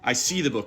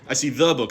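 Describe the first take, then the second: First: The stress falls on the word see. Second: The stress falls on the word the. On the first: I see it rather than sensing it another way. "I don't smell it" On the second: It is this particular book, not another. "not some other book"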